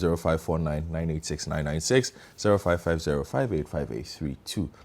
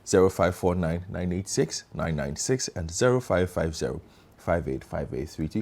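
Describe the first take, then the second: First: The number is read at normal speed. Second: The number is read slowly.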